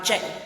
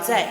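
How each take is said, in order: First: The consonant is said as a J sound. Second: The consonant is said as a Z sound. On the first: This is how speakers out west say it. "you go out west to Oklahoma, some speakers ... they'll say" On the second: This is how local speakers say it. "around here, I've heard more so, that T S turns into like a Z sound"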